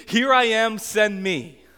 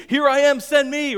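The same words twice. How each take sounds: First: Loud, high and eager, a hand shot up; Isaiah's fired-up "Here I am, send me"; pumped-up eager volunteer. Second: Put-on much higher and louder, squealed like a toddler; eager kids. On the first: Retold or imitated. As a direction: burst out like a man who can't wait to be sent. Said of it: "is all pumped up". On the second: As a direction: shriek it as an excited little kid volunteering. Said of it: "they're like".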